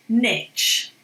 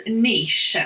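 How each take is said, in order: First: Niche said as "nitch", short vowel and tch ending; American "nitch". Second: Niche as "neesh", drawn-out ee into sh; corrective "neesh". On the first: Retold or imitated. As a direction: say niche to rhyme with "pitch". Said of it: "they call it niche. It's not niche". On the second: Shown as a demonstration. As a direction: say niche with a long ee, ending in sh. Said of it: "It's niche".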